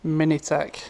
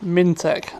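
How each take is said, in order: First: The name is said with three syllables. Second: The name is said with two syllables. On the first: The speaker calls it wrong. "I was saying it wrong" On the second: The speaker calls it right. "Mintech, not Minitech"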